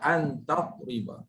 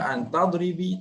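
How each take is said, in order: First: The last word ends in an a vowel. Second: The last word ends in an i vowel. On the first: The speaker calls it right. "Baca dengan ba sebab ada an amin nasab" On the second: The speaker calls it wrong. "Jangan baca an tadribi, tak boleh"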